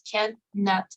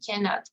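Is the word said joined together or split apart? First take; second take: split; joined. First: It is split into two separate parts. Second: It is said as one joined word. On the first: The speaker calls it wrong. "no es cannot" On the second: The speaker calls it right. "es directamente cannot"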